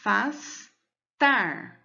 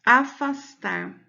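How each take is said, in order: First: "afastar" very slowly as a, fas, TAR with wide pauses; syllables, stress on TAR. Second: Said in the usual way. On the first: Shown as a demonstration. Teacher asking for the strongest syllable of "afastar", slow and split up. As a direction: separate each syllable of "afastar", landing on TAR. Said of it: "Qual é a sílaba mais forte?". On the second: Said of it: "eu vou separar a sílaba".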